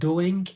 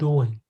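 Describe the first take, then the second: First: The final g sound is pronounced. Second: The final g sound is dropped.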